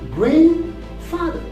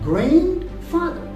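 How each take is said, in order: First: The D sound is dropped after the N. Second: The D sound is pronounced after the N. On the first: The speaker calls it right. "the D is not pronounced here" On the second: The speaker calls it wrong. "people do pronounce it grandfather"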